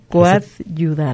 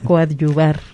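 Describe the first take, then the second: First: The consonant before -ar is a d sound. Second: The consonant before -ar is a b sound. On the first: The speaker calls it wrong. "como si fuera con dos D" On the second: The speaker calls it right. "es con V"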